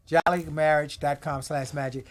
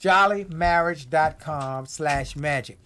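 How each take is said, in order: First: Said in the usual way. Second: Slow dictation of the address; slow, spelled-out web address. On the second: Shown as a demonstration. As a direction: say jollymarriage dot com slash magic slowly, word by word.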